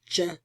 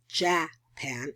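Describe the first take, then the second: First: The first vowel is a reduced uh schwa. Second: The first vowel is a full, unreduced vowel. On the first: The speaker calls it right. "So that's an ashwa" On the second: The speaker calls it wrong. "it's not Japan"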